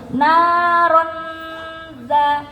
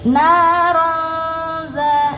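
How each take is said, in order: First: The n is clearly pronounced before the z. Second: The n is hidden as a nasal before z. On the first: The speaker calls it wrong. "langsung naronza itu nggak samar. Jelas" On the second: The speaker calls it right. "nggak nyentuh dulu, naroza baru disentuh"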